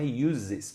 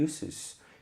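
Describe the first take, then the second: First: The middle consonant is a Z sound. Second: The middle consonant is an S sound. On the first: The speaker calls it wrong. "isso aqui não é uses, por causa do usos no português com Z" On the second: The speaker calls it right. "Uses tem som de S"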